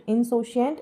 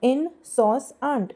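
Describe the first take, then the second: First: Said in the usual way. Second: Teacher drawing out insouciant very slowly for the class; slow drawn-out word. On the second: Shown as a demonstration. Teacher to students, insouciant said very slowly. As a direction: stretch insouciant out very slowly, syllable by syllable. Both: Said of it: "Insouciant, insouciant, insouciant".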